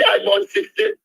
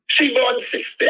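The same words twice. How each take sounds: First: I hit harder and higher, born sixty plain; stress on I. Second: She punched, then born sixty said evenly; stress on She. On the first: Caller setting his own birth year against hers, stressing I. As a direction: push the word I to contrast with her. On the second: Caller comparing the vice president's birth year with his own, stressing She. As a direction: lean on the word She to set her apart. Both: Real, not acted.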